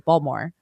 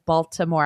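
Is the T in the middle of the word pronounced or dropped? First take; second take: dropped; pronounced. First: The middle T sound is dropped. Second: The middle T sound is clearly pronounced. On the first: "usually people just say Baltimore, ... you don't pronounce the T" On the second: "I pronounce the T"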